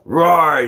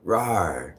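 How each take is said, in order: First: Loud, higher roar; loud rawr. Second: Low rawr. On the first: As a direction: belt the growl out. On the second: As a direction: murmur the growl under your breath. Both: Shown as a demonstration. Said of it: "is different from".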